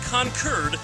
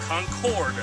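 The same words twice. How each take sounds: First: The last syllable sounds like 'curd'. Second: The last syllable sounds like 'cord'. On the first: This is how locals say it. "you say Concord" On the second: This is how the speaker normally says it. "Concord is how I would generally pronounce it"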